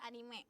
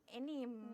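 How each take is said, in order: First: The word ends with a pronounced final vowel. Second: The word ends without the final vowel. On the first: This is how it is read in Japan. "kalau di Jepang itu dibaca anime" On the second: This is how people outside Japan say it. "Mereka tuh nyebutnya kalau e itu anim"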